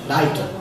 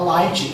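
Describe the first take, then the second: First: It has an R-like sound and an added final vowel. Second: It has an L sound and no added final vowel. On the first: "ele vai ler Light" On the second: "o japonês vai ler a palavra light"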